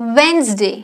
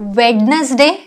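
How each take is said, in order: First: The middle d sound is silent. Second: The middle d sound is pronounced. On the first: The speaker calls it right. "It's वेन्सडे" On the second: The speaker calls it wrong. "No"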